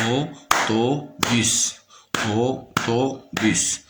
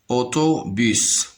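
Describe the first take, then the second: First: AU-TO-BUS in three slow, separate beats; split into syllables. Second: Said in the usual way. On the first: Shown as a demonstration. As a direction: sound out Autobus syllable by syllable. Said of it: "se compose de trois syllabes". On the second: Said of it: "Le mot autobus se compose de trois syllabes".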